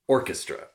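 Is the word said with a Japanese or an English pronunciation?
English. It is said with an English pronunciation. "of orchestra, of a non-Japanese word"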